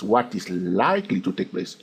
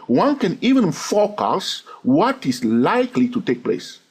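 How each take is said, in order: First: Likely given the weight, the rest quieter; stress on likely. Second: Said in the usual way. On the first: Shown as a demonstration. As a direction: lean on likely, not guaranteed. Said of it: "I did not say what is guaranteed to take place". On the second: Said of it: "I did not say what is guaranteed".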